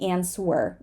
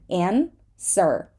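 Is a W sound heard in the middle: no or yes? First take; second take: yes; no. First: A W sound is heard after the S. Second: No W sound is heard after the S. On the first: The speaker calls it wrong. "We do not say answer. Mm-mm" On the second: The speaker calls it right. "we do not say the W in the word to and in the word answer"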